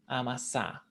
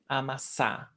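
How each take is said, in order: Both takes have the same delivery.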